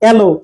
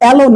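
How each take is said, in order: First: The first vowel is a closer 'e' sound. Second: The first vowel is open, like 'a' in cat. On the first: The speaker calls it right. "এখানে এটা কিন্তু এই থাকছে" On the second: The speaker calls it wrong. "এলো না"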